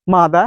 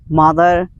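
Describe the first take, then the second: First: The final R sound is dropped. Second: The final R sound is clearly pronounced. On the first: "They drop the sound" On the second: "All time they pronounce R"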